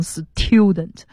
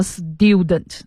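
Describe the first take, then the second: First: Student said s-TYU-dent with a puffed t; student with a breathy hard t after the s; wrongly aspirated t. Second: Student said s-DU-dent, t like a d; student with an unaspirated t after the s; voiced t after s. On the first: Teacher showing what nobody says, student with aspirated t. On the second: Teacher giving a familiar example, student with d-like t. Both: Shown as a demonstration. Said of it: "你不会念成student".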